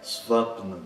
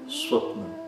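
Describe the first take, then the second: First: The consonant after s sounds like English v. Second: The consonant after s sounds like English w. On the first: The speaker calls it wrong. "não é Svapna" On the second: The speaker calls it right. "É como se fosse um U curto ou o W do inglês"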